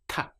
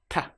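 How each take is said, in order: First: The t is soft, tongue behind teeth apart. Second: The t is soft, tongue behind teeth apart.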